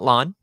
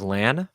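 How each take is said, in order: First: The vowel sounds like the one in 'on'. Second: The vowel sounds like the one in 'man'. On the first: The speaker calls it wrong. "not Lon" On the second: The speaker calls it right. "it is a solid, solid good that he is Lan"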